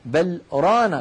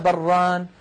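First: There is a short pause after bal. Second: The two words are joined without pause.

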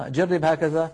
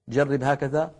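The two takes are said the same way.

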